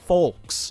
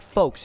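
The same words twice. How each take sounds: First: The vowel sounds like the 'u' in 'full'. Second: The vowel is a long 'oh' sound. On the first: It refers to queer people. The speaker calls it wrong. "like full K S" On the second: It refers to one's family or people in general. The speaker calls it right. "one you say folks, like like folks, you know my folks"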